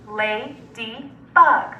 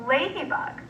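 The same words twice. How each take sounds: First: Ladybug as la, dy, bug with pauses; chopped into syllables. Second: Said in the usual way. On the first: Shown as a demonstration. Teacher segmenting Ladybug with students, chopped into syllables. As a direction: slowly chop Ladybug into three syllables. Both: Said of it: "segment or chop it".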